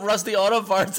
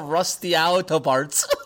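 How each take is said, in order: First: It is said plainly as Rusty Auto Parts. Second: It is split oddly as Rust Yau Top Arts. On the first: This is the name as it is written. The speaker calls it right. "it's just straight up Rusty Auto Parts" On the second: This is how the name was misread. The speaker calls it wrong. "I totally saw Rusty Auto Parts"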